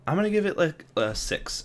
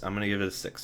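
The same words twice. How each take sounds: First: Sudden high excited burst, then slowing. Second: Said in the usual way. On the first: Real, not acted. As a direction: blurt the score out eagerly. Excited rating reveal.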